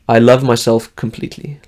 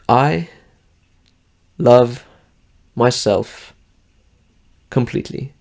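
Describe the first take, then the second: First: It is said smoothly without gaps between words. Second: It is said slowly with gaps between words.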